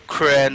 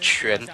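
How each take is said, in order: First: The name does not begin with a 'ch' sound. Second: The name begins with a 'ch' sound. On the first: The speaker calls it wrong. "it's not like Qu- Quan" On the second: The speaker calls it right. "It's Quan. So kind of uh, channel the C H sound"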